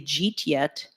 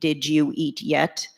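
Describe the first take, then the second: First: The words are squeezed together into two syllables. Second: Each word is said fully and separately. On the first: "New Yorkers are the people that can say jeet yet" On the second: "we know we mean did you eat yet?"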